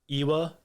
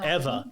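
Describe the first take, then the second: First: The middle consonant is a W sound. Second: The middle consonant is a V sound. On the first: The speaker calls it wrong. "I called it Ewa because it was E W A" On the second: The speaker calls it right. "no, it's Eva"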